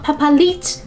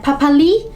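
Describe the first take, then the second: First: The final consonant is sounded. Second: The final consonant is silent. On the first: The speaker calls it wrong. "not papalit" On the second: The speaker calls it right. "the great character, is not being sound out"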